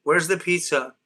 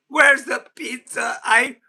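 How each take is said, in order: First: Said in the usual way. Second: Higher, slow, drawn-out whine; mock whiny demand. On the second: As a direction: whine for the pizza like a child. Repeating pizza demand, drawn out.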